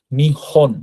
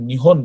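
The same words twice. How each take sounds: First: নিহন split into two separate parts, নি and হন; নিহন syllable by syllable. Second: Said in the usual way. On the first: Shown as a demonstration. Teacher breaking down the word for Japan, নিহন said in two separate syllables. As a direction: sound out নিহন with a break after নি. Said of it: "ওইটাই এখানে নি উচ্চারণ হচ্ছে". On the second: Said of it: "আমরা যখন নিহন বলি".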